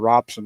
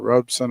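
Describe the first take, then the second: First: The first syllable sounds like 'rob'. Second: The first syllable sounds like 'robe'. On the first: "I call it Robson" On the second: "why it's called Robe"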